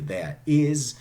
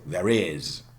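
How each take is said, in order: First: No r sound links the two words. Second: An r sound links the two words. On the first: The speaker calls it wrong. "You wouldn't say" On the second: The speaker calls it right. "you say"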